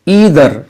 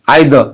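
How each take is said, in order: First: An American accent, with the final r pronounced. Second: A British accent, with the final r dropped. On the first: "American वाले इसे बोलते हैं ईदर" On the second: "British वाले बोलते हैं आइद ... आखिर में जो आर है ना, ये उसको हज़फ कर जाते हैं"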